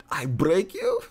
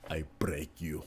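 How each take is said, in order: First: High, amused send-up of a villain; Drago impression. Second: Soft, low movie-villain line; Drago impression. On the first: Streamer replaying the Drago line, high comic voice. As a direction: repeat the threat pitched up, half laughing. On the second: Streamer quoting Drago to chat, low villain voice. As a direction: say it quietly, like a menacing Drago. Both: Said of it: "About Drago".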